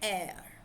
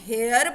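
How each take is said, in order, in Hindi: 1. शब्द सीधे स्वर ध्वनि से शुरू होता है। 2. शब्द बोलने में h ध्वनि से शुरू होता है। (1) "silent h" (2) "जे तुसी इनू हेयर बोलोगे ... वो गलत हो जाएगा"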